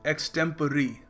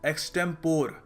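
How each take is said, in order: First: The word ends in an 'ee' sound. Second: The word ends in an 'or' sound. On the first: The speaker calls it right. "मगर सही तरीका इसको pronounce करने का है एक्सटेम्परी" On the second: The speaker calls it wrong. "काफ़ी लोग इस शब्द को प्रोनाउंस करते हैं एक्सटेम्पोर"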